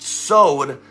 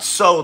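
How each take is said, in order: First: It is said with the Hebrew pronunciation. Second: It sounds like the English word 'sowed'. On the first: The speaker calls it right. "that's how you say it in Hebrew" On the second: The speaker calls it wrong. "not sowed like you sow a seed"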